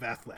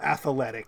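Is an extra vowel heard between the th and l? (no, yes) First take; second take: no; yes. First: No extra vowel is inserted between th and l. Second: An extra vowel is inserted between th and l. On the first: "instead of" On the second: "an A sound between the TH and the L"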